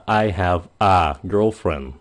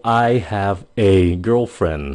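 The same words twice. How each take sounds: First: "a" said as a short "a"; I have a girlfriend with a light "a"; reduced A vowel. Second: "a" said as a clear "e", slowly; I have a girlfriend with "a" as "eh"; full E vowel. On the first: Teacher showing viewers the A sound, slow. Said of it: "nhiều khi phát âm là A". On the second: Teacher showing viewers the E sound, slow. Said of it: "cái chữ E nhiều khi phát âm là E". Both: Shown as a demonstration.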